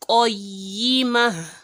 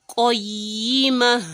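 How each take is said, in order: No difference in how they are said.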